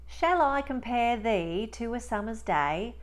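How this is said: It is spoken in a Cockney accent. "And now in Cockney"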